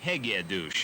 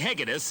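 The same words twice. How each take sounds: First: The name is said with a Hungarian pronunciation. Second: The name is said with an American pronunciation.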